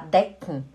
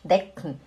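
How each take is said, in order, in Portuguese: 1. O k emenda direto no n final. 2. O k emenda direto no n final.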